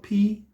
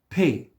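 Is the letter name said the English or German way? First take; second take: English; German. First: The letter sounds like the English word pee. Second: The letter is said with the German vowel. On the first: The speaker calls it wrong. "not P, because I'm not peeing today" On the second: The speaker calls it right. "So pronounce it P"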